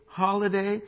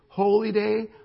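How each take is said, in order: First: It is said quickly as one blended word. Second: It is said slowly as two separate words. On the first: A day off from work. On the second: A day set apart as sacred.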